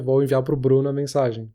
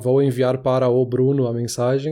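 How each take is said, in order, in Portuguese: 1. As palavras 'para o' são reduzidas para 'pro'. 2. As palavras 'para o' são ditas por extenso. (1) "Transformei o para o no pro" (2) "em vez de falar"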